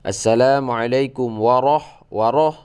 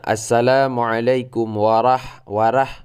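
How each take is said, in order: First: It is said in a Javanese accent. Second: It is said in a Sumatran accent. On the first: "ada orang Jawa" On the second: "orang Sumatera bilangnya"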